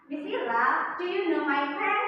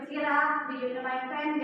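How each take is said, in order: First: Pen lifted clearly at the end; rising question tune. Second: Said in the usual way. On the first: Shown as a demonstration. Teacher models the right way to ask a friend, rising tune on pen. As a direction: let the last word pen rise. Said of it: "Kalau dalam bentuk ucapan". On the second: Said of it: "Jangan seperti itu".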